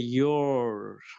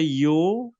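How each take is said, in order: First: It is said with an American accent, with r. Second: It is said with a British accent, no r.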